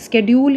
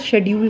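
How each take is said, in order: First: The word begins with an 'sk' sound. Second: The word begins with an 'sh' sound. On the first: "स्केड्यूल या शेड्यूल कुछ भी बोल सकते हो" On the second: "स्केड्यूल या शेड्यूल कुछ भी बोल सकते हो"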